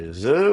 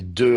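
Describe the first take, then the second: First: The first consonant is a fricative, like th. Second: The first consonant is a stop, like d. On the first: "fricatives si elles sont précédées d'un élément vocalique" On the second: "au lieu de prononcer de"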